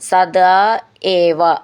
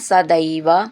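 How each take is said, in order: First: The two words are said separately. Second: The two words are merged into one.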